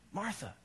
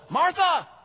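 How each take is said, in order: First: The name is said softly and calmly. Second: The name is called out loudly and sharply.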